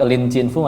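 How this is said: The name is read with Mandarin sounds. "Kalau pakai Lin Chin Fu Mandarin"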